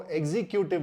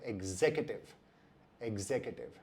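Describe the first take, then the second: First: एग्जीक्यूटिव said ek-zee-kyoo-tiv; एग्जीक्यूटिव with long ee and kyoo; wrong pronunciation. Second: एग्जीक्यूटिव said eg-ZEK-yu-tiv; एग्जीक्यूटिव with short e and zek; correct pronunciation. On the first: Scene: teacher showing common error, demo. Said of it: "तो ये भी गलत है". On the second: Scene: teacher giving right form twice, careful. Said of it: "इसका सही उच्चारण होता है". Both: Shown as a demonstration.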